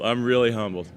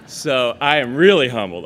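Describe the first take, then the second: First: Said in the usual way. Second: Laughing. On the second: Real, not acted. Laughing after the sister joke.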